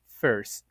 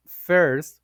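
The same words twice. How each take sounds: First: "first" ending on the S, final T dropped; Patois-style "first" without its last T; simplified consonant cluster. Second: Said in the usual way. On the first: Shown as a demonstration. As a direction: say "first" as "firs", no T. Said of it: "will be pronounced first". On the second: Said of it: "the consonant cluster R S T".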